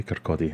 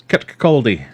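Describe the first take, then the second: First: Said in the usual way. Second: Kirkcaldy in a louder, hammed-up Teuchter Scottish accent; mock Scottish accent. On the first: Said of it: "couldn't say Kirkcaldy". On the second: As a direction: imitate the classmate's rural Scottish accent saying Kirkcaldy. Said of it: "for my terrible accent".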